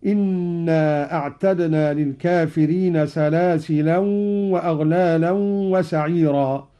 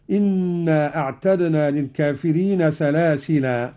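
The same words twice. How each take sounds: First: "سلاسلا" with tanween when joined; "سلاسلا" nunated in connected reading. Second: Stopping form of "سلاسلا"; stop on alif. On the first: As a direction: join "سلاسلا" to the next word with nunation. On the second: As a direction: pause on "سلاسلا" with a long final a. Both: Shown as a demonstration. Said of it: "وقف بالألف هكذا".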